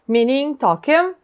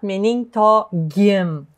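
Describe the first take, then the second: First: The consonant before the ending is k. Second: The consonant before the ending is g. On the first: The speaker calls it right. "also the same way" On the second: The speaker calls it wrong.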